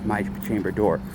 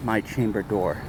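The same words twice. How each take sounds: The two takes are said the same way.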